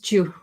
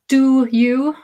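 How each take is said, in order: First: The words are squeezed into one quick weak syllable. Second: Both words are said fully and separately.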